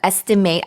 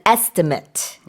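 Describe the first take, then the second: First: It is pronounced the way the verb is. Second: It is pronounced the way the noun is. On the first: It names the action of judging roughly. "as a verb, by the way, when you say estimate, the pronunciation changes a little bit" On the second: It names a rough calculation. "but an estimate, it's a little different"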